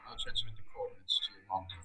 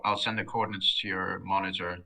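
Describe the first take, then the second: First: Low and rushed, mic too quiet; muttered quickly under the breath. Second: Louder and clearer for the listener; repeated louder. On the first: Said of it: "your mic was a bit low". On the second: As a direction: speak up so they hear it. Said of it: "Say that again?". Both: Real, not acted.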